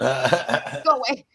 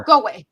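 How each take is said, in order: First: Slow, stretched "Go away" in an odd put-on voice; drawn-out go away. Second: Playful shoo. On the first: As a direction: drag the words out teasingly. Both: Real, not acted. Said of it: "I love you. Go away".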